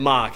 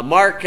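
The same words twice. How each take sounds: First: New York accent. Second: Said in the usual way. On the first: Shown as a demonstration. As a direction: say "Mock" with an open ah vowel and no r. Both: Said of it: "Mock is how he says his name".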